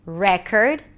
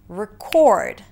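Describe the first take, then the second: First: The stress falls on the first syllable. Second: The stress falls on the second syllable. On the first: It is a noun: a record. "a record" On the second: It is a verb: to capture something. "to record"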